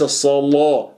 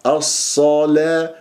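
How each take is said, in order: First: الصلاة with ل thickened like Warsh; heavy lam. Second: الصلاة drawn out with a thin ل after heavy ص; light lam. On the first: Teacher shows what to avoid in Hafs, heavy-lam الصلاة. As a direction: darken and round the لا in الصلاة. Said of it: "هذه الصلاة في رواية ورش". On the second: Teacher models Hafs recitation, light-lam الصلاة. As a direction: switch from full ص to light لا in الصلاة. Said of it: "وليس الصلاة". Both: Shown as a demonstration.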